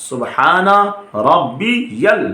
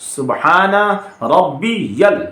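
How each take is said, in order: Both takes have the same delivery.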